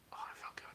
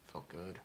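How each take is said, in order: First: Breathy whisper, no voice. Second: Said in the usual way. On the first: Shown as a demonstration. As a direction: whisper it with relish.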